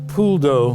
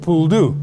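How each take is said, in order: First: It is said with standard French pronunciation. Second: It is said with an altered local Cajun pronunciation. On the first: The speaker calls it right. "is how it's pronounced correctly in French" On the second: The speaker calls it wrong. "has been bastardized to become a poule d'eau"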